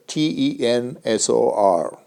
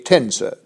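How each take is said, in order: First: "T E N S O R" spelled slowly, one letter at a time. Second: Said in the usual way. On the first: Shown as a demonstration. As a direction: spell out "T E N S O R" clearly for the class.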